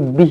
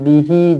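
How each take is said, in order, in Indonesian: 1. Kata ini berakhir dengan bunyi h polos. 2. Kata ini berakhir dengan suku kata hi yang penuh. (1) "Kalau berhenti dekat sini bih lah" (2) "jangan bihi"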